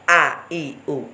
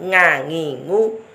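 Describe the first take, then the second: First: The sound is made deep, like a glottal stop. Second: The sound is made forward, like an ng. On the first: "bukan a-i-u" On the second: "Bukan ngangingu"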